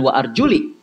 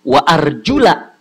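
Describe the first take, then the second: First: The word ends with an 'i' vowel. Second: The word ends with an 'a' vowel. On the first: The speaker calls it wrong. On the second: The speaker calls it right.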